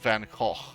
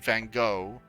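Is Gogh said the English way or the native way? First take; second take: native; English. First: It is said with native-style sounds. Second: It is said with English-style sounds. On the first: This is how the name is really said. The speaker calls it right. "It's called Van Gogh" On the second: This is how many English speakers say it. The speaker calls it wrong. "a lot of people saying Van Gogh, but that's not how you pronounce it"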